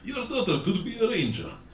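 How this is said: It is read in a put-on Russian accent.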